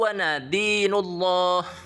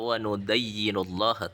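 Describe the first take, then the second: First: The verb is said as nadinu, without doubled y. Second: The verb is said as nudayyinu, with doubled y. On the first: The speaker calls it right. "Yang benar itu" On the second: The speaker calls it wrong. "Dia membaca"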